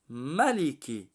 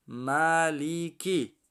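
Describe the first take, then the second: First: Said in the usual way. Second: Measured teaching read of ملیکی; syllable by syllable. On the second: Shown as a demonstration. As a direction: stretch each syllable of ملیکی. Spells word syllable by syllable.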